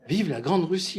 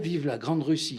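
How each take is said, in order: First: Louder, higher mock proclamation; a hammed-up toast to Russia; mock De Gaulle proclamation. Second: Said in the usual way. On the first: De Gaulle on Red Square hails Russia, a mock grand proclamation. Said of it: "il était allé dire". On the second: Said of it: "dire à Brejnev".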